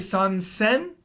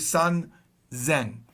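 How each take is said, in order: First: The second word starts with an s sound. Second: The second word starts with a z sound. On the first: The speaker calls it wrong. "If you say san sen, it is wrong" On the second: The speaker calls it right. "It likes to change it to san zen"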